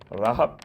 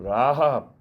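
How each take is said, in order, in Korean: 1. 이 모음은 짧게 발음해요. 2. 이 모음은 길게 발음해요. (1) "파타흐라고 단모음이에요. 라합 이렇게 간다면" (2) "여호수아의 라합은 라합 길어요"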